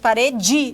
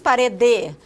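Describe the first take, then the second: First: The final syllable is an affricate 'ji' sound. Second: The final syllable is a plain 'de' sound. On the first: This is how speakers here say it. "nós falamos parede, e por isso que nós produzimos essa africada" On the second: This is not how speakers here say it. "Nós não falamos parede"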